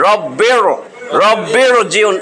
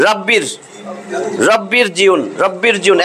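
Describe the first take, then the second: First: রব্বির জিউন with a thick, heavy r. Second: রব্বির জিউন with a light, thin r. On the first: Teacher now saying the heavy r for contrast. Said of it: "এখন বলতেছি". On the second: Teacher showing the thin r of the other rule. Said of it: "যদি আলিফটা না থাকতো তাহলে বলতাম". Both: Shown as a demonstration.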